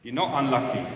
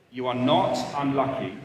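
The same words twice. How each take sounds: First: Said in the usual way. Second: Repeated for emphasis, "not" stretched; stress on not. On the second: Real, not acted. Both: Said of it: "Do you hear that?".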